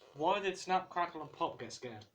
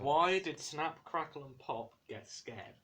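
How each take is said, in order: First: The question is said fast. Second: The question is said more slowly.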